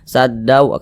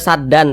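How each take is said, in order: First: The ending merges into a nasal w sound. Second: The ending is a clear n sound. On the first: The speaker calls it right. "dimasukkan ke huruf wawu. Jadi saddau bacanya" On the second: The speaker calls it wrong. "jangan dibaca saddan"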